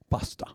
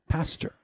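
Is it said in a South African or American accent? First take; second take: South African; American. First: It is said in a South African accent. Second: It is said in an American accent.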